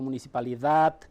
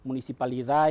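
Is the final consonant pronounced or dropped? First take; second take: pronounced; dropped. First: The final consonant is pronounced. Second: The final consonant is dropped. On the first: This is the form Paraguayan Spanish speakers do not use. "no digo municipalidad" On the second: This is how Paraguayan Spanish speakers say it. "municipalidad y no digo"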